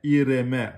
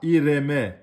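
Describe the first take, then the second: The two takes are said the same way.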